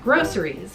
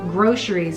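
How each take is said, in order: First: The middle consonant is a plain s sound. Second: The middle consonant is an sh sound. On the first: "I always pronounced it groceries with an S sound" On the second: "with the kind of sh sound on it"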